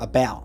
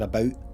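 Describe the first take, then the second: First: The vowel sounds American, like 'abowt'. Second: The vowel sounds Canadian, like 'aboot'. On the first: "Instead of about" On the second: "one of the ways I can tell it's a Canadian accent is when I hear uh, what sounds like maybe an American accent, but I hear about"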